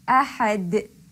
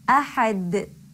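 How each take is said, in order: The two takes are said the same way.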